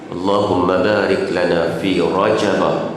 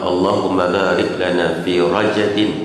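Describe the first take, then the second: First: The last word ends with an open -a vowel. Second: The last word ends with an -in sound. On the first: "baca dengan Rajabah" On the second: "yakni baca dengan Rajabin majrur"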